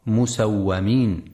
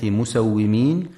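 First: مسومين with fatha on the waw, musawwamin; the mistaken مسومين, waw with an a vowel; wrong reading. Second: مسومين with kasra on the waw, musawwimin; correct reading. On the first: Teacher warning listeners of the wrong reading, مسومين as musawwamin. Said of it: "فلا يقرأ مسومين". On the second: Teacher showing listeners the right reading, مسومين as musawwimin. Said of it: "لكسر الواو وعدم فتحها". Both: Shown as a demonstration.

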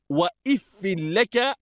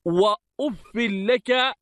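First: وإف said "wa-iffi", opening on i; kasra on alif. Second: وأف said "wa-uffi", opening on u; u on the alif. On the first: Teacher showing students وإف as "wa-iffi", i on the hamza. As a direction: open وإف with "if", not "uf". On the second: Teacher reading وأف as "wa-uffi", u on the alif. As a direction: open وأف with "uf", not "if". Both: Shown as a demonstration. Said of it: "بكسر الألف".

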